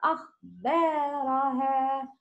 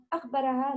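First: أخبارها with the ا held for two beats; teacher models the long alif in أخبارها. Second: أخبرها with the ا clipped short; teacher shows the missing long vowel in أخبرها; short alif, wrong. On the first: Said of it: "Make long sound". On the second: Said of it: "not أخبرها". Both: Shown as a demonstration.

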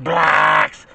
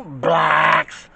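First: Low, drawn-out blacks; deep emphasis. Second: Blacks said low and drawn out; mock-deep blacks; deep emphasis. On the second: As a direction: drop into a heavy chest voice on blacks. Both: Shown as a demonstration. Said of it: "I'm just emphasizing it really, really big and deep".

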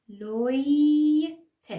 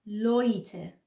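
First: Very slow, loud, rising "لوی", then separate short "ت"; slow syllable model. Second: "لویته" as one word, "loy-teh"; joined-up word. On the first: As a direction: hold "لوی" long, then add "ت" after a gap. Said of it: "تکرار کنید". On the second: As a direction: put "لویته" together without a gap. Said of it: "پس شد لویته". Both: Shown as a demonstration.

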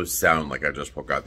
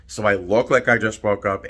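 First: Low morning voice. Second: Said in the usual way. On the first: Shown as a demonstration. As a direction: voice dropped low, just woken up. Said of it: "This is my morning voice". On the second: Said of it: "I also sound like I just woke up".

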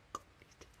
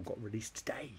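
First: Very soft voiceless repeat; barely audible hushed murmur; whispered echo. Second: Said in the usual way. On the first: Real, not acted. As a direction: whisper it as an aside. Hushed echo of previous words.

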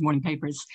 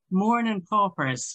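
First: Said in the usual way. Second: Put-on drawn-out Irish-accent take on "Morning paupers"; mock Irish accent. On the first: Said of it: "which is morning papers". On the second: Lecturer quoting a mother's letter that mocks the Irish accent, mock Irish accent. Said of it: "The Irish accent is dreadful".

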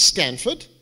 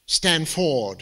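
First: Said in the usual way. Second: Stanford with a full, weighted second syllable, Stan-FORD; stress on the wrong syllable. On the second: Shown as a demonstration. Speaker correcting himself to mock Stanford, Stanford with weight on FORD. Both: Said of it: "Emphasis on the wrong syllable".

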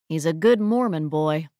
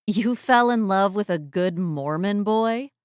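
First: Said in the usual way. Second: Disbelieving question, rising at the end; incredulous. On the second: Acted. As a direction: echo it back in disbelief. Disbelieving echo of his statement.

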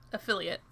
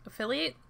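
First: "Affiliate" with a short, unstressed "it" ending, falling; settled pronunciation. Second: "Affiliate" with a long ATE ending, rising as a question; "Affiliate" as a verb, voice lifting in doubt; questioning pronunciation. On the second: Tries two pronunciations of word. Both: Shown as a demonstration.

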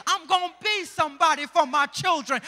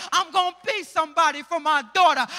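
First: Strong preacher's vow; building sermon line; preaching declaration. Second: Quicker, louder preached vow; louder repeat. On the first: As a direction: declare it to the church. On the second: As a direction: push the repeat harder. Repeat builds louder, faster. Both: Acted.

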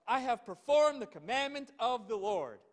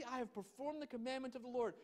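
First: Proud claim. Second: Softer, higher skeptical repeat; mocking echo. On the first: Acted. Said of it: "Look at, really?". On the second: Shown as a demonstration. Preacher repeating Saul's claim, skeptically quieter. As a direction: echo his claim in doubt. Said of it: "Saul, really?".

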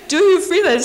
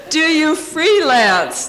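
First: Said in the usual way. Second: Slow, laughing disbelief; incredulous laugh-drenched retelling; laughing through the quote. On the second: Retold or imitated. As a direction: quote it while cracking up. Retelling an insulting question, laughing.

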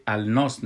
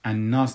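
First: "الناس" said al-nas, with the l sounded; pronounced as written. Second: "الناس" said an-nas, l merged into a doubled n; lam left silent. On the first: Teacher showing how the surah's name is spelled, lam sounded. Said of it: "الناس نوشته شده". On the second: Teacher showing how the surah's name is really pronounced, lam silent. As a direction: drop the l in "الناس" and hold the n. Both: Shown as a demonstration.

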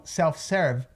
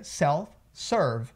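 First: "self-serve" with a Brazilian open E in serve; pronúncia brasileira. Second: "self-serve" slowly, with UR in serve; som de UR. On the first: Retold or imitated. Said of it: "os brasileiros, eles pronunciam". ("self-serve" à brasileira, com E aberto) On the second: Shown as a demonstration. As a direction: curl back the R in "self-serve", slow. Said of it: "aquele som de U R aí". ("self-serve" devagar, serve como surv)

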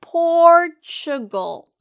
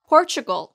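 First: Slow, loud Portugal as "POOOR-chuh-gul"; drawn-out repeat-after-me Portugal; pronunciation drill. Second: Quick Portugal as "POR-chuh-gul"; pronunciation drill. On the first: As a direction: hold a high POR in Portugal. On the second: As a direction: hit POR in Portugal at natural speed. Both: Shown as a demonstration. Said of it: "그럼 같이 발음해 볼까요".

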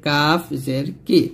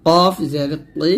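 First: Light k in কাফ; slow, light Arabic k on কাফ; thin kaf. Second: Heavy back-of-throat q in কফ; slow, heavy Arabic q on কফ; thick qaf. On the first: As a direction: say কি thin, with an ordinary k. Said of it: "কাফটা কিন্তু পাতলা করে". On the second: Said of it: "এই কফটা কিন্তু মোটা করে". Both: Shown as a demonstration.

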